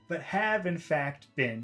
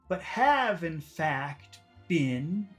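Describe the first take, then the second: First: The last word has a short vowel. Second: The last word has a long vowel. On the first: The speaker calls it right. "Let me do it again" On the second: The speaker calls it wrong. "now I made it long"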